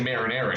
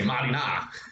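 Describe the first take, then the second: First: Said with a general American pronunciation. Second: Said with an Italian-American pronunciation. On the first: This is how most people say it. "she wouldn't say marinara" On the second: This is how the family says it. "she would say marinara"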